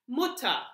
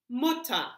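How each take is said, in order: Both takes have the same delivery.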